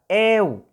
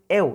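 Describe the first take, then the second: First: The vowel is drawn out long. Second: The vowel is short and plain. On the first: The speaker calls it right. "es prolongada" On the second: The speaker calls it wrong. "no es eu, no es simple"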